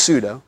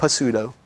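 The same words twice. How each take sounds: First: Pseudo said SOO-doh, no P sound; silent P. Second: Pseudo with the P sounded, puh-SOO-doh; P pronounced. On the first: Teacher correcting students' pronunciation, pseudo with a silent P. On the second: Teacher showing students the mistake, pseudo with a sounded P. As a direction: say pseudo wrongly, voicing the silent P as puh. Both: Shown as a demonstration. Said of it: "You don't pronounce the P".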